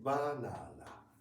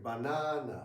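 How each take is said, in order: First: All three syllables are equally loud. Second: The second syllable is louder than the others. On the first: The speaker calls it right. "without stress. Same, mm, yeah, same loudness" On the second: The speaker calls it wrong. "sounds a bit strange to us"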